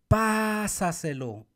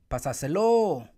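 First: The stress is on the first syllable. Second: The stress is on the fourth syllable.

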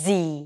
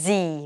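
First: The letter ends in a long 'ee' sound, like zee. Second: The same.

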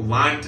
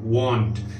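First: The vowel is said with open, unrounded lips. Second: The vowel is said with rounded lips. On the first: The speaker calls it wrong. "वांट नहीं" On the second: The speaker calls it right. "देखिए mouth जो lips हैं वो घूमते हैं, round होते हैं"

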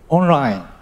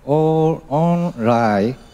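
First: It is said with English pronunciation. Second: It is said with Thai pronunciation.

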